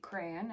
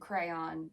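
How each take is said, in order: First: It is one syllable rhyming with man. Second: It is two syllables, the second rhyming with dawn. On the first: "With one syllable rhymes with man" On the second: "I say cr- with two syllables where the second syllable rhymes with dawn"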